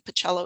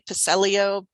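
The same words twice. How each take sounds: First: The name is pronounced the Italian way. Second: The name is pronounced the anglicized English way. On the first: This is how the speaker says it. "but I'm Italian. Pacello is how I pronounce it" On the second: This is how other people say it. "Some people say Pacello"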